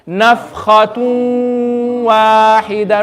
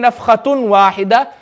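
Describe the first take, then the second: First: The n merges into a nasal w sound. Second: A clear n sound is heard before the w. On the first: The speaker calls it right. "I'm going to make the wow sound immediately. And I'm going to read it with the ghunna" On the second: The speaker calls it wrong. "I'm not going to say"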